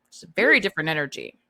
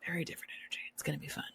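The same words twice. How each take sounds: First: Said in the usual way. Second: Breathy whispered echo of the line; hushed teasing whisper. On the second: Acted. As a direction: drop to a stage whisper for effect. Repeats tagline, then whispers it.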